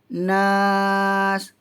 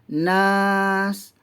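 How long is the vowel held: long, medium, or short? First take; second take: medium; short. First: The vowel is held for four beats. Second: The vowel is held for two beats. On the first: "Kalau empat harakat" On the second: "Kalau dua harakat"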